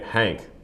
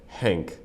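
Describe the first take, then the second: First: The vowel is an American 'a' as in hat. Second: The vowel is an 'eh' sound. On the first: The speaker calls it wrong. "like it is in America" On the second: The speaker calls it right. "like a eh, eh, eh"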